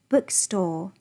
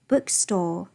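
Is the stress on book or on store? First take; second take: book; book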